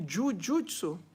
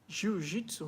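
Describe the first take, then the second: First: The word is said with the original Japanese sounds. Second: The word is said with Portuguese-style sounds. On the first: This is the original name. The speaker calls it right. "mas o nome da original é" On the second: This is how the West says it. The speaker calls it wrong. "que é pronunciado na língua portuguesa e algumas línguas ocidentais"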